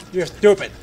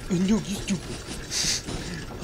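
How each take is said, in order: First: Quick, louder jab; a punchy little accusation; mock insult. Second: Very drawn-out, soft put-on voice; slow mock-dopey comeback to oneself; mocking retort. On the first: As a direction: throw a playful insult out loud. Argues with himself in two parts. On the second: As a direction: stretch the comeback out slowly and quietly. Answers his own insult in another voice.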